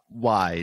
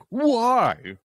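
First: It sounds curious and puzzled. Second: It sounds frustrated and annoyed.

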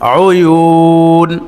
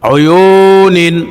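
First: The word ends on a bare n sound. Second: The word ends with a vowel and n, nin. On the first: The reader stops on this word. "এখানে ওয়াকফ হলে অয়ু নিন হবে না, নুন সাকিন হয়ে যাবে" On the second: The reading continues without stopping on this word. "নুনের নিচে তানভিন দুই জের"

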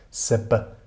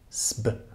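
First: A short vowel separates the s and b. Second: The s and b are joined with no vowel. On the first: The speaker calls it right. "mit kurzem Lufteinschluss zwischen den zwei Konsonanten S und B" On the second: The speaker calls it wrong. "Also nicht sb"

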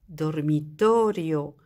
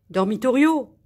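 First: The stress is on the second-to-last syllable. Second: The stress is not on the second-to-last syllable. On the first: The speaker calls it right. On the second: The speaker calls it wrong.

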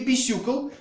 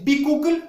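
First: The second syllable sounds like 'syoo'. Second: The second syllable sounds like 'koo'. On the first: "или бисюкл, что меня очень бесит" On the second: "у нас есть бикукль"

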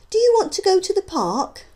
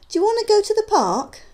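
First: Each word is said separately and clearly. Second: The words are run together and reduced. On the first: "you can see the words being spoken" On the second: "how they might sound to the listener"

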